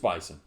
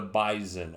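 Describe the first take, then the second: First: The middle consonant is a hissing S sound. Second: The middle consonant is a buzzing Z sound. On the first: The speaker calls it right. "It's bison. It really is, just like you think it is" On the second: The speaker calls it wrong. "the Bison with a Z"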